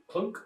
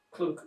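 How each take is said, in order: Both takes have the same delivery.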